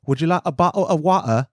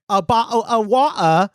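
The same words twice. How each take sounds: First: Lightly put-on English accent on "water"; a polite English offer, "water" without the r; a hint of a polite English host; English accent impression. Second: Laughing, higher incredulous "water"; a light mock-baffled repeat; incredulous echo. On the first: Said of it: "my best impression". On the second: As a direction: echo it back in amused disbelief. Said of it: "And I was like".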